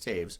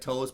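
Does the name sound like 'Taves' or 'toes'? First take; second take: Taves; toes. First: The name rhymes with 'waves'. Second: The name rhymes with 'goes'. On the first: The speaker calls it right. "but it's Taves" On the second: The speaker calls it wrong. "It looks like toes"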